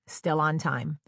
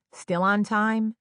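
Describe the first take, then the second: First: Said in the usual way. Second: Slow, suspended "Still on time"; drawn out. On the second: A narrator's reading. Traveler watching the flight status at the gate, drawn out. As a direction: stretch out "Still on time", pitched up.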